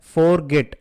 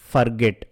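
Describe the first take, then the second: First: The first syllable sounds like 'for'. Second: The first syllable sounds like 'fer'. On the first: The speaker calls it wrong. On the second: The speaker calls it right.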